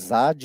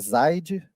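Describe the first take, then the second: First: The name is said without an 'i' glide. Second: The name is said with an 'i' glide. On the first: The speaker calls it wrong. "Vocês viram que me chamar de Zad" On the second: The speaker calls it right. "Um J com som de I, então é Zaid"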